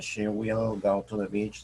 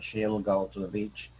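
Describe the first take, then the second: First: Will is said as a full separate word. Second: Will is contracted and joined onto she. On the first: "ellos no dicen"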